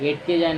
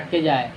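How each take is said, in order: First: The first vowel is an 'e' sound. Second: The first vowel is an 'a' sound. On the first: The speaker calls it wrong. "এটকে যায় না" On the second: The speaker calls it right. "ওটা আটকে যায়"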